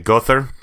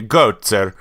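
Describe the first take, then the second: First: The name is said in an Andalusian accent. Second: The name is said in an Italian accent. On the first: "your Andalusian where they say Gother" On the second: "You got your Italian"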